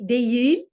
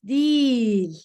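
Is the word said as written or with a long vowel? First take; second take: as written; long vowel. First: Each written letter is sounded, giving two syllables. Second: The middle merges into one long vowel sound. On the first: The speaker calls it wrong. "You write di" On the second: The speaker calls it right. "like a long E, long I sound"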